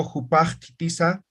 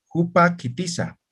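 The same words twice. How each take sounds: First: "jupa kitiza" run together smoothly, no break, last vowel held; smooth and joined. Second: "jupa kitiza" with a clear break after "jupa". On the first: Teacher showing students the harmonized way, smooth and joined. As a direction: blend "jupa kitiza" into one even flow. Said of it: "allá está armonizado". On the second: Teacher showing students the cut in the word, broken apart. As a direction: chop "jupa kitiza" in two at the glottal cut. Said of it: "ahí hay un corte". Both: Shown as a demonstration.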